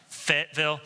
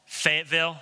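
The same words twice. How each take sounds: First: Fayetteville said FET-vil, short e, two quick syllables; retry Fayetteville as FET-vil, settling on it; corrected Fayetteville. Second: Fayetteville said FAYT-vil, three syllables squeezed to two, with a doubtful rising tune; first try at Fayetteville. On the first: Pastor retrying the town name Fayetteville, plain FET-vil. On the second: Pastor unsure how locals say Fayetteville, tentative FAYT-vil. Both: Shown as a demonstration. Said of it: "did I say that right?".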